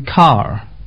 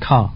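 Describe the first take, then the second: First: It is said in the local accent. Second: It is said in a British accent. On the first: "they say car" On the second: "rather than car"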